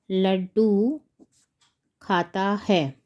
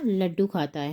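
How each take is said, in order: First: Laddu drawn out rising, pause, slow खाता है; word by word, falling on है; slow dictation. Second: Said in the usual way. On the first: Shown as a demonstration. Teacher writing out the king's answer, slow dictation.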